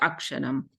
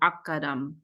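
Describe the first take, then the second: First: The middle 'sh' sound is clearly pronounced. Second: The middle 'sh' sound is dropped entirely. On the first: "the Sanskrit classical pronunciation is you pronounce it Aksharam" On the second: "Bengali style pronunciation drops that S"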